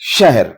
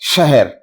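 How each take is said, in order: First: No vowel follows the h sound. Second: A short a vowel follows the h sound. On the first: The speaker calls it right. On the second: The speaker calls it wrong.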